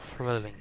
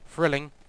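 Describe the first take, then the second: First: The word is pronounced in an odd, unusual way. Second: The word is pronounced in the ordinary way. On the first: The speaker calls it wrong. "Why did I say it like that?" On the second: The speaker calls it right. "I can say thrilling perfectly normally"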